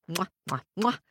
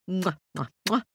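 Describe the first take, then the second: No difference in how they are said.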